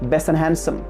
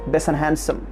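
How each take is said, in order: First: The t and d sounds are dropped. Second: The t and d sounds are dropped.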